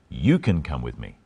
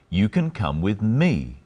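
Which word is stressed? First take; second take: You; me. First: The stress is on "you". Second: The stress is on "me".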